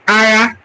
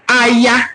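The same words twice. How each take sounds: First: The middle consonant is a throaty gh sound. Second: The middle consonant is a plain y sound. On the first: "if you pronounce it very well as an Igbo person... A G H A" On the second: "We call war Aya, A Y A"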